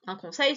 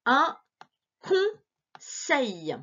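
First: Said in the usual way. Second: Slow reading. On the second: Shown as a demonstration. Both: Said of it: "essaie de lire avec moi".

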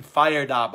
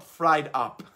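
First: "fired" said clearly as fire-d, two beats; correcting a misread word. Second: "fried" said as one quick beat, like frying food; mock misreading. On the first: Host correcting her misreading for viewers, "fired up" said clearly. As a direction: stress "fired" with a full "fire" vowel. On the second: Host mocking her own misreading of a chat comment, "fried up". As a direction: lightly say "fried up", the misread word. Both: Shown as a demonstration. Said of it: "No, not, not fried up".

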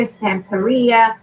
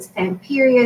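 First: "Stamperia" slowly, as stam-peh-REE-ah; Spanish pronunciation. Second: Said in the usual way. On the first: Shown as a demonstration. Crafter offering viewers either version, Spanish pronunciation. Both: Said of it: "however you're gonna pronounce it".

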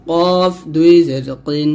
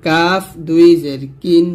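First: Heavy back q in কিন; slow heavy Arabic q; thick qaf. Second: Light k in কিন; slow light Arabic k; thin kaf. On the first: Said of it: "এই কফটা কিন্তু মোটা করে". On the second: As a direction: say কাফ and কিন thin, slowly. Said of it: "কাফটা কিন্তু পাতলা করে". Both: Shown as a demonstration.

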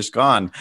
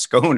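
First: "scone" rhyming with "gone"; short-O scone. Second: "scone" rhyming with "bone"; long-O scone. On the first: Host unsure of the word, offers "scone" rhymed with gone. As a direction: say "scone" with a short, open AH vowel. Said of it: "pronounced scone or scone". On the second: Host unsure of the word, offers "scone" rhymed with bone. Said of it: "I don't know if it's pronounced". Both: Shown as a demonstration.

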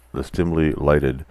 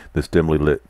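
First: "this dimly lighted" re-read slowly and carefully; slower correction. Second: Said in the usual way. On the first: Real, not acted. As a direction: fix the misread by slowing on "dimly lighted".

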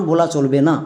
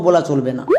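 The two takes are said the same way.

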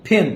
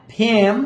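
First: ফেন with a short, close e. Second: ফেন with a stretched, open "ae"; open long a. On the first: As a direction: keep the vowel in ফেন brief. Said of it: "কলম". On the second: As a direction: draw out ফেন like English "pan". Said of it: "কড়াই". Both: Shown as a demonstration.

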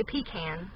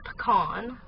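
First: "pecan" said "PEE-can". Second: "pecan" said "puh-KAHN". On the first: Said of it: "but I say pecan". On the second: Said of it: "it's supposed to be pecan". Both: Shown as a demonstration.

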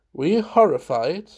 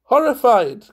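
First: Said in the usual way. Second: High, loud exclamation of delight; crying out. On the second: A narrator's reading. Valentine echoing Munt's question, crying out. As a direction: throw the word back in a high cry. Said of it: "cried Valentine".

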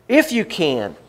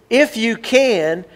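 First: Said in the usual way. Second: "If you can" raised and slow, stress on "If"; stressed challenge. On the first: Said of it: "But he said". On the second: Shown as a demonstration. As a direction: challenge him with "If you can", slowly and higher. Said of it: "He says".

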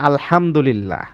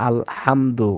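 First: আলহামদুলিল্লাহ with a deep throaty হ from the throat; আলহামদুলিল্লাহ, the হ pressed deep in the throat; Arabic recitation. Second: আলহামদু with a light breathy হ, slow; slow, light হ in আলহামদু, the error; wrong pronunciation. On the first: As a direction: recite আলহামদুলিল্লাহ with the heavy throat হ, Quran style. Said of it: "এটা হচ্ছে কি?". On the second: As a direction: show the mistake: আলহামদু with a soft plain হ. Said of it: "যদি আমার শব্দটা এরকম উচ্চারণ হয়". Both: Shown as a demonstration.

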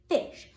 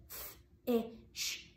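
First: Said in the usual way. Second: F-ish pulled apart, f then ish; segmented fish. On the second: Shown as a demonstration. Teacher segments fish for the class. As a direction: stretch f-ish into sounds. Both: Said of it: "the second part of the word".

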